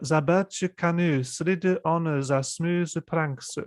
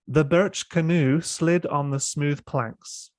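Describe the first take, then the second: First: It is read with a slight Japanese accent. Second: It is read in a standard British accent. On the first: "let me try with a slight katakana accent" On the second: "I'm going to read this sentence in my standard British accent"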